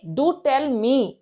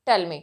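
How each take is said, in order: First: Slow, "Do tell me" with "Do" leaned on; teacher contrasting plain and emphatic. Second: Said in the usual way. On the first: Shown as a demonstration. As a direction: insist with a drawn-out do. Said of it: "But if I say". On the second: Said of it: "आप दोनों ही tone को देखिए".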